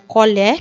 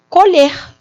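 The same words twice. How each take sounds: First: The final vowel is said open. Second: The final vowel is said closed. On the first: It is the noun meaning spoon. "lido assim com as vogais mais abertas" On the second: It is the verb meaning to harvest. "é diferente a forma verbal"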